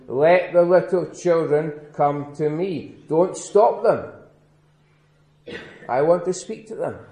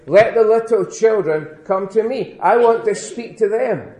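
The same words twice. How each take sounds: First: Gentle Jesus. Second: Put-on raised, eager call to the children; Jesus eagerly calling the little children over. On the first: Acted. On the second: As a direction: call them in gladly, a bit louder.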